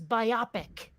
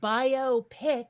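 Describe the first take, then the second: First: It is said to sound like myopic. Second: It is said as bio plus pic. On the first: This is how it is said in Britain. "if you're in Britain, it's biopic" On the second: It is a picture that is a biography. "a picture that is a biography"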